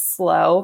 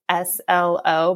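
First: It is said as the single word slow. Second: It is spelled out as three separate letters. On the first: The speaker calls it right. "it's Slow because that's how you say it in California" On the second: The speaker calls it wrong. "I thought it was S-L-O"

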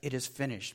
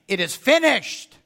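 First: It is said weakly and faintly. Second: It is said as a loud triumphant cry.

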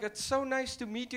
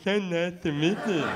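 First: It is said in a warm, friendly tone. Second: It is said in an irritated, sarcastic tone.

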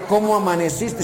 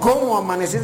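First: It is said in a sweet, wooing voice. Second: It is said grudgingly, wanting it over.

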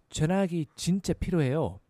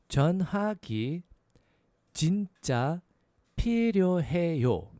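First: It is said a little faster. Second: It is said at a slower, normal pace.

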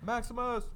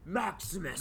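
First: The name is called out plainly, without drama. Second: The name is called out dramatically, like a movie. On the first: The speaker calls it wrong. "not like that" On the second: The speaker calls it right. "Yes, you see, make it mad dramatic"

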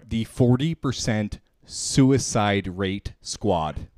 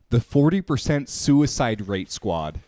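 First: It is said slowly and deliberately. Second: It is said at normal speed.

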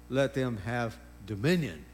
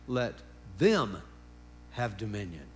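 First: The strongest stress falls on 'dominion'. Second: The strongest stress falls before 'dominion'. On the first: The usual reading, focused on having dominion. "we always say" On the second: God chose to share his dominion with humans. "Let me emphasize a different word there than dominion"

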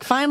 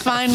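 First: It sounds impressed and appreciative. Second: It sounds let down and disappointed.

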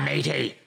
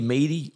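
First: It is said in an English accent. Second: It is said in a Bronx accent.

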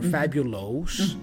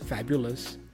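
First: The ending is not a plain 'us' sound. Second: The ending is a plain 'us' sound. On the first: The speaker calls it wrong. "my tendency would be to say famous or fabulous" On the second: The speaker calls it right. "once you learn us"

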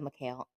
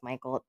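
First: The name is said as Mikhail. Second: The name is said like English Michael. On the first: The speaker calls it right. "It's probably Mikhail" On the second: The speaker calls it wrong. "I thought it was Michael"

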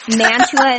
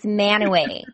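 First: The name is said with a 't' sound. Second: The name is said without a 't' sound. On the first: The speaker calls it wrong. "Mantua is how it's spelled" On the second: The speaker calls it right. "but it's Manaway"

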